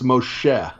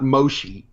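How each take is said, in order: First: The name is said with a native Hebrew pronunciation. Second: The name is said with an anglicized pronunciation. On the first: The speaker calls it right. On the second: The speaker calls it wrong. "it's not"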